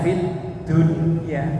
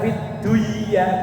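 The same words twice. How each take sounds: First: The n sound is pronounced clearly before y. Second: The n sound merges into the following y. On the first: The speaker calls it right. "Tapi kok bacanya fid dunya" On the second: The speaker calls it wrong. "Kalau idgham berarti kan fid dunya gitu ya"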